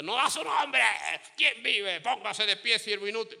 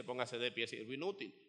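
First: High, loud bark of an order; harsh greeting. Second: Low, soft version of the same order; said after a smile. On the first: Retold or imitated. Servant greeting the congregation wrongly, loud and harsh. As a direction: greet them like a drill sergeant. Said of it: "No, no, no, no". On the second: Shown as a demonstration. Servant telling the church to stand, softly and calmly. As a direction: say it gently, after smiling first. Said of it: "Pero empiece con una sonrisa".

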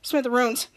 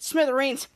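First: "Smithereens" garbled as "smither-ooms"; "Smithereens" botched to rhyme with "rooms"; mispronounced word. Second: "Smithereens" ending in a long "eens"; "Smithereens" said the proper way, rhyming with "greens"; correct pronunciation. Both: Acted. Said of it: "you said smithereens".

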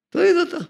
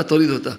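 First: "תוריד אותה" thrown out much higher, scoffing; mock demand. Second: Said in the usual way. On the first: Shown as a demonstration. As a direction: toss off "תוריד אותה" high and dismissive. Rebuking kippa wearer who won't smile.

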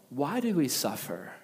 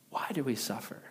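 First: Said in the usual way. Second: Soft unvoiced repeat; whispered echo. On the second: Pastor echoing the chorus line to the congregation, whispered. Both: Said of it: "together they sing".

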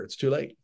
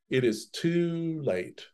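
First: Said in the usual way. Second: "It is too late" drawn out slowly and quieter, stress on "too"; slow, soft emphasis. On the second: Shown as a demonstration. Teacher repeating the verdict to the class, slow and soft. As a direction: let "too" sink, slowly and softly.

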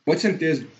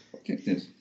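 First: Said in the usual way. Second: Whispered. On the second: Real, not acted. Fan promising the title.

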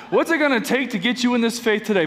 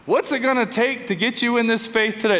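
First: Fast pushy sales pitch; used car salesman voice. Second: Pushy salesman pitch; used car salesman voice. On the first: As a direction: close the deal like a slick car dealer. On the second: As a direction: sell it like a slick car dealer. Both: Acted. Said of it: "That's my used car salesman voice".

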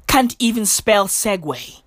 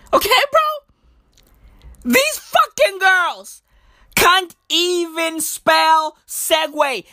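First: Said in the usual way. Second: High, slow, drawn-out disbelief; mock outrage. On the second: Real, not acted. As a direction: stretch every word high in exasperation. Repeats complaint in mock outrage.

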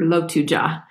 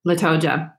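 First: "Lotuja" said Lo-TU-ja with o then u; corrected pronunciation. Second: "Latoja" said La-TO-ja with an open a; first pronunciation. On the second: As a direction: try "Latoja" with a first syllable of la. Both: Shown as a demonstration. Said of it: "Or Lotuja".

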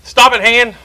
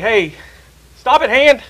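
First: Loud, higher command to stop; the whole body yells at the hand now; louder scolding. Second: Sharp, higher call to stop; scolding the hand. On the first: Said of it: "Then you bring the hand in the foot". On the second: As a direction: tell the hand off firmly. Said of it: "and you, you're like". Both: Retold or imitated.

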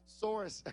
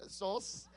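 First: "Source" with a clearly sounded r; corrected pronunciation. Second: "source" with the r dropped, like "sauce"; own accented pronunciation. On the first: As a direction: say "Source" carefully, r before the final s. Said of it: "with this my accent". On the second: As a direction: let "source" sound like "sauce", no r. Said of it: "you understand when I say". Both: Shown as a demonstration.

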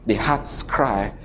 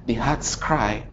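No difference in how they are said.

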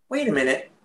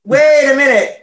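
First: Hushed, stunned double take; hushed wait a minute; awestruck. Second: Louder, higher stunned wait a minute; loud mock astonishment; loud double take. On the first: Retold or imitated. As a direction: breathe it out in quiet amazement. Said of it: "you're just like". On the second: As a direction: call it out, floored by her looks.

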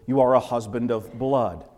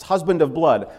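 First: Said in the usual way. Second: Husband said louder with a falling tune; Husband of blood with a heavy first word; stress on Husband. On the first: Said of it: "So we have this emphasis". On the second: Shown as a demonstration. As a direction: lean hard on Husband, then let blood fall. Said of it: "it's emphasized".

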